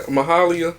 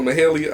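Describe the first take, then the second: First: Mahalia with a broad "ah" in the middle; alternative pronunciation. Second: Mahalia with an "ay" in the middle; alternative pronunciation. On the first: Unsure of the singer's name, [name] said muh-HAH-lee-uh. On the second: Offering another guess at the singer's name, [name] said muh-HAY-lee-uh. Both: Real, not acted. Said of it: "how to pronounce that name".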